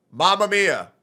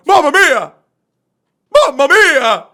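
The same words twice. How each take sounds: First: Mamma Mia said with no feeling at all; imitating a lifeless line read; mock emotionless. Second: Much higher, loud heartfelt Mamma Mia!; dramatic loud Italian exclamation; emotional exclamation. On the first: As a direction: rattle off Mamma Mia like it means nothing. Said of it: "There's no emotion in it". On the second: Shown as a demonstration. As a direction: cry out Mamma Mia! with real alarm. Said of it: "it's supposed to exclaim emotions".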